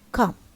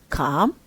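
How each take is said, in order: First: The pitch falls on the word. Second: The pitch rises on the word. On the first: "number one, falling"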